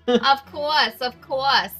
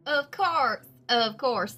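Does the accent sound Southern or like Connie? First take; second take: like Connie; Southern. First: It is said in Connie's accent. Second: It is said in a Southern accent.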